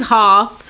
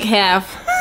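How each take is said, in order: First: Half with a long broad AH, "hahf"; British half. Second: Said in the usual way. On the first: Retold or imitated. Daughter quoting dad, British half with broad AH. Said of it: "in a British accent". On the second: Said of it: "He, like, half".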